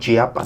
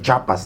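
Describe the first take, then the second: First: The 'i' sound after 'ch' is kept. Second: The 'i' sound after 'ch' is dropped. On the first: This is the full form of the name. "no chiapas" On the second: This is how people from Mexico City say it. "dicen chapas"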